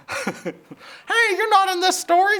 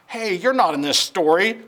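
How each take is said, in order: First: Very high squawky hen voice, breaking into laughter; chicken voice, laughing. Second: Higher, louder narrator voice by mistake; wrong voice, narrator's. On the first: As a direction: redo it as the hen, giggling. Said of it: "said Chicken Licken". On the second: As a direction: slip into the wrong character voice. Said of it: "I'm getting my voices mixed up". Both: Acted.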